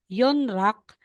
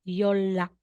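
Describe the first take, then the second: First: The middle consonants sound as N then R. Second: The middle consonants sound as a long L. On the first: The speaker calls it wrong. "instead na sasabihin mong" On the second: The speaker calls it right.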